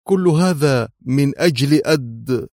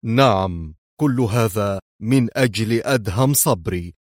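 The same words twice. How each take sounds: First: Emphatic outburst, broken off mid-name; impulsive outburst. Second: Understated, mocking agreement; sarcastic. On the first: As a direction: blurt it out and stop short. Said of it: "اندفعت قائلة". (باندفاع) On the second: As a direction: confirm it with a mocking smile. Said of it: "فابتسم هو في سخرية". (بسخرية) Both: A narrator's reading.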